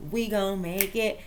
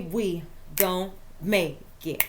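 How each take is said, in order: First: [name] line. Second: Slow, low hip hop chant of the line; [name] line. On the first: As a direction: lean into it like a rap refrain. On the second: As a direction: drag it out like a rap hook. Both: Retold or imitated. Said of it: "that little [name] for you".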